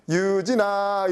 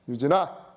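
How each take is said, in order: First: The name is called in a bright, playful tone. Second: The name is called in a stern, scolding tone. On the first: Let's go play. "이 음조에 의해서 어 놀자라는 그런 그런 이제 그 내부 표상이 떠오르고" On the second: You might be in trouble. "혼나나? 뭐 이런 느낌"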